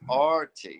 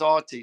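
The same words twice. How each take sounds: First: It is said in the speaker's ordinary accent. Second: It is said in a British accent.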